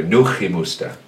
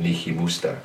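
First: "Nuchimusta" opening on NOO, with a back-of-the-mouth CH; corrected original name. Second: "Nihimusta" opening on NEE, with a simple H after it; altered NI form. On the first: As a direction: say "Nuchimusta" with NU and a fricative CH. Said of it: "but the name is". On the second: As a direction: say "Nihimusta" the anglicised way, starting NI. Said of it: "that makes more sense than". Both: Shown as a demonstration.

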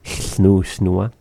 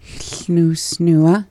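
First: Snoo, snooa said together; Welsh sounds. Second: Snoo, snooa copied higher, rising; learner repeat. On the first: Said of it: "we say it all together". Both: Shown as a demonstration.

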